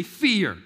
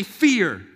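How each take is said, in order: First: Said in the usual way. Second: A bit louder and firmer; louder fear. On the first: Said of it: "Somebody say". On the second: Shown as a demonstration. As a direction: push the word Fear out harder. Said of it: "Come on, say".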